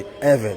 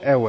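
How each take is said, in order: First: The name is given a native-style pronunciation. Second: The name is given an anglicized pronunciation. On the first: The speaker calls it right. "it's actually Ewe" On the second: The speaker calls it wrong. "not the Ewe"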